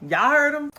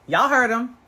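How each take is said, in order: First: Much higher and louder, hammed up; loud mock exclaim. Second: Mock exclaim. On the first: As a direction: shout it like a punchline. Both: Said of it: "I don't know what accent I'm going with".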